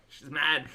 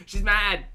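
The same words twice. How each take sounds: First: Said in the usual way. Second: "mad" punched louder and higher; louder, emphatic repeat. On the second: Real, not acted. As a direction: insist on it, louder.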